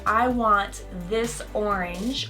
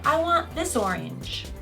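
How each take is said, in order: First: The words are said separately, not joined. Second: The s sound runs into the next vowel. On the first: The speaker calls it wrong. "I wouldn't say" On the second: The speaker calls it right. "I would say"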